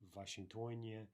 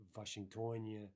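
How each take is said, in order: No difference in how they are said.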